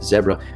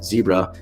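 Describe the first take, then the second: First: It is said with a South African pronunciation. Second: It is said with an American pronunciation. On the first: "in South Africa they pronounce it zebra" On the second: "We pronounce it zebra"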